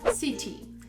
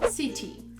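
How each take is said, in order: First: British accent, with a clear t sound. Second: British accent, with a clear t sound.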